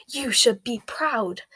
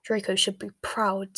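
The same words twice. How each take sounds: First: Slow, emphatic rebuke; ruthless. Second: Offhand, unmoved remark; indifferent. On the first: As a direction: drive it home without pity. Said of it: "said Bellatrix ruthlessly". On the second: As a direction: say it with cool indifference. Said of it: "said Bellatrix indifferently". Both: A narrator's reading.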